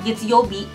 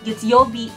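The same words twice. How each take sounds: Both takes have the same delivery.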